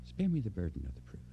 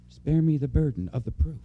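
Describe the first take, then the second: First: The same words dropped to a soft hush; quiet repeat. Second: Said in the usual way. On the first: Shown as a demonstration. Preacher repeating the plea to the congregation, softly. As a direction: let it sink in quietly, almost to yourself. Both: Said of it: "Do you know what I mean by that?".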